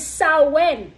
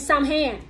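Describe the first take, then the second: First: The word does not begin with 'Sam'. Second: The word begins with a clear 'Sam' sound. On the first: The speaker calls it right. "the right pronunciation is Samhain" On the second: The speaker calls it wrong. "how they were pronouncing it wrong. They kept saying Samhain"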